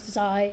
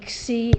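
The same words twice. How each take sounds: First: The letter name uses the common modern pronunciation. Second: The letter name uses a classical Greek pronunciation. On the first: "and not" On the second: "I use classical pronunciations. I say"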